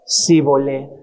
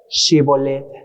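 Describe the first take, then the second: First: The word begins with a plain s sound. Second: The word begins with an sh sound. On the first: The speaker calls it wrong. "Ellos, ¿cómo decían? Sibolet" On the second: The speaker calls it right. "no podrían pronunciar ¿qué? Shibolet"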